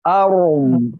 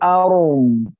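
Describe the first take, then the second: Both takes have the same delivery.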